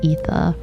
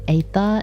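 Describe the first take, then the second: First: The first vowel sounds like the letter E. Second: The first vowel sounds like the letter A. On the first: This is how other people say it. "instead of ether" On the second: This is the speaker's own pronunciation. "how I say aether"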